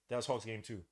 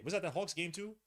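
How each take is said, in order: First: Said in the usual way. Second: "Was that the Hawks game two" rising high at the end; questioning tune. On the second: Real, not acted. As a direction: ask "Hawks game two" with the pitch lifting. Asks himself, then answers.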